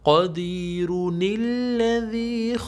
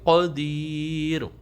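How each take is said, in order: First: The word ends in -un, linked to the next. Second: The word ends on -r and stops there. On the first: The reciter continues without stopping. "अगर स्टॉप नहीं करेंगे फिर पढ़ेंगे" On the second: The reciter stops at this word. "अगर स्टॉप कर लेंगे फिर पढ़ेंगे क़दीर"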